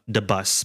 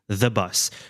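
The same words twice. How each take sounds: First: The first word starts with a D sound. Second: The first word starts with a TH sound. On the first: The speaker calls it wrong. "They say the bus with a D sound, ... but it's incorrect" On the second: The speaker calls it right. "we say the bus. So here the tongue needs to be between the, the teeth"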